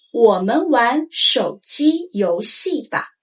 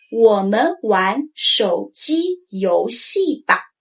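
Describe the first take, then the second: First: Said in the usual way. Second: 我们玩手机游戏吧 slowly; drawn-out, tones clear; slow model sentence. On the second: Shown as a demonstration. Teacher modeling the example, slow. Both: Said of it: "For instance".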